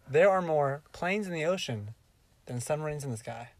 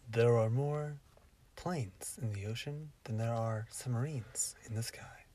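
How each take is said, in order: First: It is said in a plain everyday voice. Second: It is said in a put-on performing voice.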